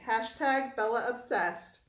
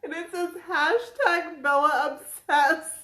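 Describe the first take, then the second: First: Said in the usual way. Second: Slow, higher and louder through laughter; reading the shirt aloud amid laughter; laughing while reading. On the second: Real, not acted.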